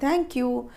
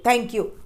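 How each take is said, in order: First: It is said gently and politely. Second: It is said abruptly, tossed out rudely. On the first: The speaker calls it right. "Politely" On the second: The speaker calls it wrong. "ऐसे फेंक के नहीं मारना है उसके मुंह पे"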